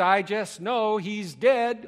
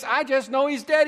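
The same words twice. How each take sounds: First: Mock moan. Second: High and loud panicked cry of dead; hammed-up panic, pitched up high; frantic wife. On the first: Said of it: "she moaned". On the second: Preacher voicing the anxious wife, high and loud. Frantic woman voiced in sermon.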